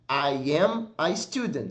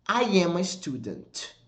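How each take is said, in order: First: "I am a student" slowly, word by word; slow blocks. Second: "I am a student" said slowly as one joined sound; one smooth block. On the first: Teacher showing students how to divide the phrase. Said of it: "Você pode dividir a frase em blocos". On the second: Teacher modelling the sentence as one linked sequence. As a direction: run "I am a student" together as a single chunk. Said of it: "Percebeu que quando eu falo". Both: Shown as a demonstration.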